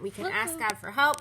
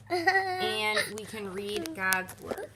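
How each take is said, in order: First: Said in the usual way. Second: Each word stretched slowly; slow, drawn out. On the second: Shown as a demonstration. Slowly reading the card to the kids. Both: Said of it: "These are what we can do".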